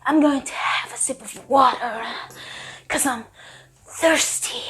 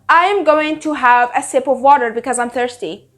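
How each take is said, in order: First: It is said in an overly intense, dramatic way. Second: It is said in a plain, ordinary way. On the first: The speaker acts tough for no reason. "He would say it like this" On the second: It is just an everyday remark. "it's normal"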